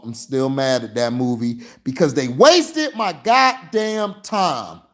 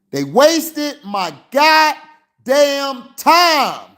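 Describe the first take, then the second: First: Said in the usual way. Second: Much higher, louder and slow, spitting out each word; exasperated fan venting, high and slow; angry slow outburst. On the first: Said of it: "I'm pissed right now". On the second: Real, not acted. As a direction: let the anger boil over, drawing every word out. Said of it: "I had to get mad".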